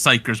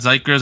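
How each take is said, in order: First: The name begins with an s sound. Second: The name does not begin with an s sound. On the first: The speaker calls it right. "apparently it's Psychers with an S" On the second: The speaker calls it wrong. "apparently it's not Zykers"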